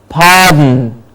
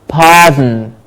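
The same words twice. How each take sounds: No difference in how they are said.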